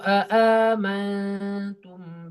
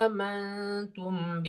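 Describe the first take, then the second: First: An extra full glottal stop is added at the start. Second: The word begins with a single glottal stop. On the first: This is the reading of another transmission of the text. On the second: This is the reading of one transmission of the text.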